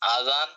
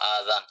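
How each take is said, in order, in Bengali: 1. প্রথম স্বরধ্বনিটি টেনে দীর্ঘ। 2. প্রথম স্বরধ্বনিটি টেনে দীর্ঘ।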